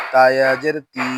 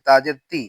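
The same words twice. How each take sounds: First: তি with a long level i; তি held long; stretched vowel. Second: তি with a short i; no stretch. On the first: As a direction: draw out the vowel of তি. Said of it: "জেরে টান দিব". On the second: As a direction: cut the vowel of তি short. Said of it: "তখন টান হবে না". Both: Shown as a demonstration.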